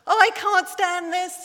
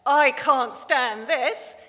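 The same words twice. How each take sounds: First: Higher, louder wail of exasperation; exasperated Daddy Bear. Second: Slow, louder exasperated grumble; a dad worn out by the snoring, dragging each word; fed-up Daddy Bear. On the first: Daddy Bear kept awake by Baby Bear, a higher, louder exasperated cry. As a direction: throw up your hands at the aeroplane noise. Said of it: "says Daddy Bear". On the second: Reading to the congregation, a fed-up Daddy Bear. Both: Acted.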